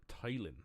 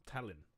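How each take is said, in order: First: "Talon" said as TAY-lin, long A; "Talon" with the A as in "tail"; first try at the name. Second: "Talon" said as TAL-in, short A; "Talon" with the A as in "cat"; corrected name. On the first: Reading a viewer's name aloud, first guess at "Talon". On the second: Reading the name again, second guess at "Talon". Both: Shown as a demonstration.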